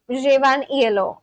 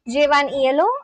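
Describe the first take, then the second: First: It is said as a plain statement. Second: It is said as a question. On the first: The speaker is telling something. "if it's a statement" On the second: The speaker is asking something. "if it's a question"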